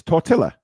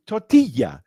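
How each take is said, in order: First: Tortilla with a sounded double l, tor-till-uh; English tortilla. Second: Tortilla with a y sound, tor-tee-ya; Spanish tortilla. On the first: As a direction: say tortilla with the l pronounced, to annoy. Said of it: "just to annoy Alex". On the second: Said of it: "[name], can you just say tortilla?". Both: Shown as a demonstration.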